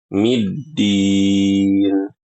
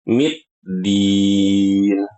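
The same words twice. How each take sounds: First: The doubled d is clean, with no t-like sound. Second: A t-like sound is heard before the doubled d. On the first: The speaker calls it right. "Berbeda kalau kita baca middin" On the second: The speaker calls it wrong. "jangan dibaca middin ... seakan-akan ada huruf ta"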